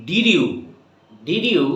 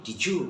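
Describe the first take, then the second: First: Said in the usual way. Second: "did you" said as "dijoo"; d and y merged. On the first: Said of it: "আমরা অনেক পড়েছি". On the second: Shown as a demonstration. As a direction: blend the end of "did" into "you" with a j sound. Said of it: "তখন হয়ে যাবে". ("did you" মিলিয়ে "ডিজু")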